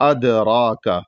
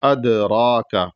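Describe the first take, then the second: Both takes have the same delivery.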